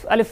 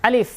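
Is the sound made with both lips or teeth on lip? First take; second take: both lips; teeth on lip. First: Both lips close together. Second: Upper teeth touch the lower lip. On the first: The speaker calls it wrong. "দুই ঠোঁট হয়" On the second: The speaker calls it right. "দেখেন উপরের দাঁত নিচের ঠোঁট।"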